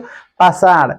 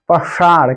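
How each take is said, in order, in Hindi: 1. sh ध्वनि तालु पर बनती है। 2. sh ध्वनि में जीभ पीछे मुड़ी होती है। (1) "अगर पढ़ोगे इसको पाषाण, गलत है, ... मूर्धा पर नहीं जा रहा" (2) "मूर्धा पर, सबसे ऊपर"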